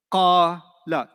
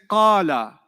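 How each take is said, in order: First: "Qala" split as long qaa, then short la; two separate syllables. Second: Said in the usual way. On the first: Shown as a demonstration. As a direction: draw out the first syllable of "Qala", pause, add la. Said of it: "Two syllables". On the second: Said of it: "how many syllables did you hear".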